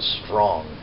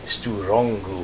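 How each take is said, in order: First: It starts with a tight consonant cluster. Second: Extra vowels split the consonants and end it. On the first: "strong starts with S T R" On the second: "adapt that word for pronunciation by a Japanese person"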